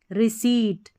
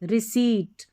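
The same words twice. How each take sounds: Both takes have the same delivery.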